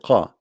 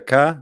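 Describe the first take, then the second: First: The consonant is a deeper back q sound. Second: The consonant is a plain front k sound. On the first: "In Yemen, the letter ka, they pronounce it as qa" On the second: "they say the ka"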